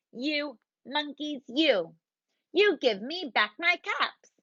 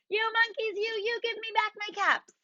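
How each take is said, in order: First: Angry peddler. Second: High, strained angry shout; shouted demand. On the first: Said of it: "This made the peddler angry". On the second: Furious peddler shouting at copying monkeys, high. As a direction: yell it with full frustration. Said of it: "He shouted". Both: Acted.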